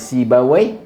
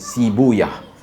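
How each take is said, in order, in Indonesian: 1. Nama itu berakhir dengan bunyi 'away'. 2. Nama itu berakhir dengan bunyi 'uyah'. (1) "ada yang kata sebutan yang betul adalah Sibawai" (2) "ada dua cara nak sebut nama dia"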